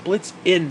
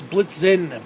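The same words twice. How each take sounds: First: "Blitz in" as two words, stress on "in"; Blitz in, split. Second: "Blitzen" said like the football blitz. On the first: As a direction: break it into "Blitz in", hit "in". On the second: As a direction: give "Blitzen" the sound of "blitz". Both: Shown as a demonstration. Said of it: "That's how I'm saying it from now on".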